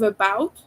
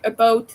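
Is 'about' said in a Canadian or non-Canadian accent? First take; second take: non-Canadian; Canadian. First: The first vowel sound is unraised, non-Canadian style. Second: The first vowel sound is raised, Canadian-style. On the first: "instead of about" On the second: "a Canadian person says something like about"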